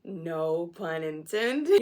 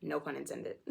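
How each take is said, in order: First: Loud, very slow, rising at the end; big drawn-out comic delivery; hammed-up punchline. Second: Said in the usual way. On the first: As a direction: stretch it out and milk the joke. Repeats the pun, hammed up.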